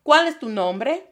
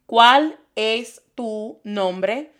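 First: Said in the usual way. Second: Very slow "¿Cuál es tu nombre?" word by word; slow teaching demo. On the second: Shown as a demonstration. Teacher slows the question for the class. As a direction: draw out "¿Cuál es tu nombre?" for learners. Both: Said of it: "I hear this question instead".

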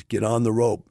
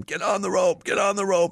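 First: Said in the usual way. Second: Much higher, yelling up from the helicopter; retold screaming. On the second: Sheriff in the helicopter screaming at the stranded man, high yell. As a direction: scream the order over the flood. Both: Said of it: "he's screaming at him".

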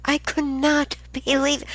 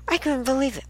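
First: High pitch, NOT hit hard and separated; stress on NOT. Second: High, quick run-through in disbelief; exasperated disbelief. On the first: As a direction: spell out the disbelief, leaning on NOT. Repeats it for emphasis. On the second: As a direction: rattle it off high, with COULDN'T run together. Disbelief at endless reminder calls. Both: Real, not acted.

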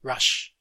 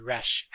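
First: "Rush" with the open central "uh" vowel; "Rush" vowel as in "cup"; English pronunciation of rush. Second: "rash" with the front "a" vowel of "cat"; "rash" vowel between "ah" and "eh"; English pronunciation of rash. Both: Shown as a demonstration. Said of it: "in English it's different".

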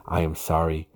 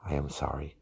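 First: Said in the usual way. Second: Barely voiced, softer sorry; whispered apology. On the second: Shown as a demonstration. Wife whispers her apology to her husband, softly. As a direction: breathe the sorry out gently.

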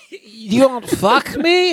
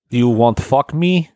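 First: Put-on much higher, very slow falsetto Russian accent; mock Russian woman. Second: Slow, hammed-up Russian accent; mock Russian woman. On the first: Repeating the joke line, in a high slow mock accent. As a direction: squeak it out like a parody Russian seductress. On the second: Joking about Russian women, in a slow mock accent. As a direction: drawl it like a cartoon Russian seductress. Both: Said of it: "hard to do a female Russian accent".

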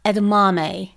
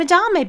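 First: EDAMAME in four syllables, ed-uh-MAH-may; corrected pronunciation. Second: EDAMAME said as uh-DAR-may; mistaken pronunciation. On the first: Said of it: "but they're edamame". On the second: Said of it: "I got it wrong". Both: Retold or imitated.

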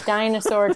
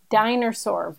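First: Said in the usual way. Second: "Dinosaur" said as "diner-saur", with an r in the middle; diner pun. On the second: Shown as a demonstration. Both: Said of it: "dinosaur chicken nuggets at the diner".

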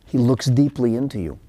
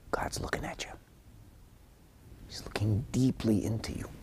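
First: Said in the usual way. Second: Hushed whisper full of awe; awed whisper. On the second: Real, not acted. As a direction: whisper it like a sacred secret. God watching you, hushed awe.

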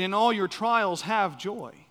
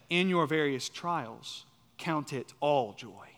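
First: "all your trials" pushed higher, slow and emphatic; misread verse emphasis. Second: Slow, measured reading that settles on "all joy"; corrected verse emphasis. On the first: Preacher showing how the text doesn't read, emphatic misreading. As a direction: stress "all" with "trials", as the mistaken reading. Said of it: "So the text doesn't read". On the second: Preacher giving the true reading of the text, measured emphasis. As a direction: set "count it all joy" apart, slowly and firmly. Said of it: "but instead". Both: Shown as a demonstration.

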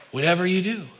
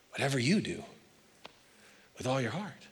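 First: Said in the usual way. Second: Soft repeat. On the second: Shown as a demonstration. Preacher repeating his point to the congregation, softly. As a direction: drop to a much softer echo.

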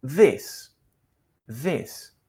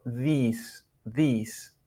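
First: "this" with a short vowel between E and I; correct vowel demo. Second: "this" with a long Spanish i, like "thees"; wrong vowel demo. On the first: Teacher corrects the vowel for learners, careful model. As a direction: model "this" with a lax, short i, not ee. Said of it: "suena como entre la E y la I". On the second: Teacher shows learners what to avoid, mispronounced vowel. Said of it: "no la pronunciamos como una I". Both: Shown as a demonstration.

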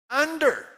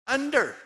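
First: Under shouted even higher and louder, falling; repeated call. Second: Under shouted high and falling, drawn out; called answer. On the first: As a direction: hammer Under home again. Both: Acted. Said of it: "Satan is where?".

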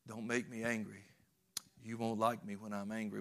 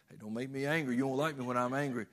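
First: Lower, softer warning, held back; a quiet, brooding quote of the Hulk's famous line; menacing Hulk line. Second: Tossed off quickly, kidding with friends; a kid's joking warning, fast and light; playful mock threat. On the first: Retold or imitated. Preacher quoting the Hulk's famous warning, low and brooding. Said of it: "there was that one famous line". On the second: Boy teasing friends with the Hulk line, fast mock threat. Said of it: "use that on all your friends".

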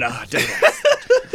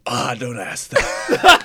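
First: Much higher, slow British put-on through a laugh; laughing mock British groan. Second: Slow, lightly put-on British sigh; a mock British grumble, drawn out; British ringtone voice. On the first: Friend imagines a British ringtone answering how are you, high laughing British. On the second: Friend mimics a gloomy British dad as a ringtone, slow mock British. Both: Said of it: "I could just play a British voice going".

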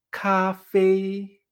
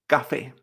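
First: CAFÉ en dos notas iguales, planas y largas; café en chino. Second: Said in the usual way. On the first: Shown as a demonstration. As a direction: alarga CAFÉ sin mover el tono. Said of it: "en chino lo decimos de esta manera". («café» alto, plano y sostenido) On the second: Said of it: "Café en chino".

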